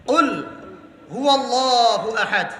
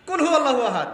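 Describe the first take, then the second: First: Slow "কুল হু আল্লাহু আহাদ" with long, drawn-out vowels; correct recitation. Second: "কুল হু আল্লাহু আহাদ" run together with short vowels; careless recitation. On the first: Shown as a demonstration. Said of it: "হুয়া আলাদা শব্দ". ("কুল হু আল্লাহু আহাদ" ধীরে, টেনে শুদ্ধ তেলাওয়াত) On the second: Retold or imitated. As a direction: imitate a careless worshipper running "কুল হু" into one word. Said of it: "বলছে কুলহু সূরা". ("কুল হু" জুড়ে দিয়ে অশুদ্ধ তেলাওয়াতের নকল)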